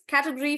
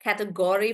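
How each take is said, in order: First: Category said the British way, quickly; British pronunciation. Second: Category said the American way; American pronunciation. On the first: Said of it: "for British". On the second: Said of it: "for Americans". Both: Shown as a demonstration.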